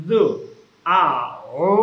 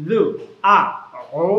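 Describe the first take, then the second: The two takes are said the same way.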